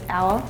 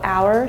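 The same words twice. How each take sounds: First: The word is said with an Australian accent. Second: The word is said with a non-Australian accent. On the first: "she goes hour" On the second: "she doesn't go hour"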